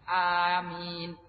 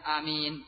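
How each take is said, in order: First: The first vowel is drawn out long. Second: The first vowel is kept short. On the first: "dengan memanjangkan hamzahnya" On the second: "dengan memendekkan hamzahnya"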